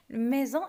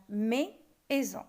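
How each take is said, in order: First: Said in the usual way. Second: "mais, aison" in two separate parts; "mais, aison" sounded out as two beats; split into syllables. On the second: Shown as a demonstration. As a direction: break "mais, aison" with a clear pause between syllables. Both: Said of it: "on prononce le mot en deux parties".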